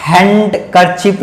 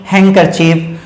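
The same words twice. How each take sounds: First: हैंडकरचीफ with the D sounded; wrong pronunciation. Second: हैंकरचीफ said as "han-ker-chip"; corrected हैंकरचीफ, n straight into k; silent D. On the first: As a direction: say हैंडकरचीफ slowly as "hand-ker-chip". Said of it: "हैंडकरचीफ नहीं". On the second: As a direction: drop the d in हैंकरचीफ. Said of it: "ये क्या पढ़ेंगे". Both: Shown as a demonstration.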